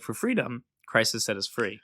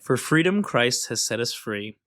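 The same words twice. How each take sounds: First: There is a pause after 'freedom'. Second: It is read straight through without a pause.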